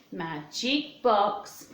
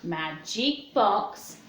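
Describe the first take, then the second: No difference in how they are said.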